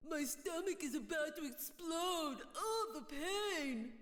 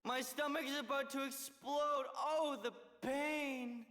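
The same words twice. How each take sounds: First: Slow, sneering parody of moaning; mock his fake pain; mocking imitation. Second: Fake pain act. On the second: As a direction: overact a stomach ache. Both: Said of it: "your lame poor me act".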